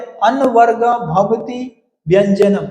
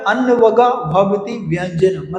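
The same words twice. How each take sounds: First: Slow measured Sanskrit recitation; recited sutra. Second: Said in the usual way. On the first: Shown as a demonstration. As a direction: intone the rule slowly, word by word. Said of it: "quoted rule, slow recitation". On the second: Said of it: "repeated as a question answer".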